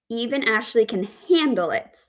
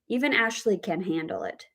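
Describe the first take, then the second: First: The stress falls on the word handle. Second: The stress falls on the word can. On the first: She dislikes it but will not break down. "we have the word stress on handle" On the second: She has the ability to deal with it. "we have the word stress on can"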